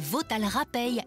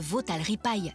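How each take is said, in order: First: The last word is pronounced 'rapeille'. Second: The last word is pronounced 'ripaille'. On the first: The speaker calls it right. "écoutez bien" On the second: The speaker calls it wrong. "Non, pas de crumble écrasé ni même de veau à la ripaille"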